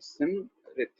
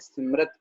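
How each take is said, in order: First: The last syllable is said with an 'i' vowel. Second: The last syllable is said with an 'a' vowel. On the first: The speaker calls it right. "सिमरित उच्चारण होगा" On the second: The speaker calls it wrong. "हम अक्सर औकात इसका गलत उच्चारण क्या कर देते हैं, सिमरत कह देते हैं"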